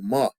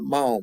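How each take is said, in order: First: The syllable ends on the open vowel. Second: The syllable ends with a w sound. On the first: The speaker calls it right. "the syllable break shifted over one letter" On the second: The speaker calls it wrong. "not mao"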